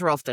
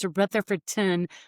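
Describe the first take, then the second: First: The name is squeezed into two short syllables. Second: Every syllable of the name is said fully. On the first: This is how locals say it. "But if you live here" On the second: This is the formal, standard way to say it. "If we say it correctly"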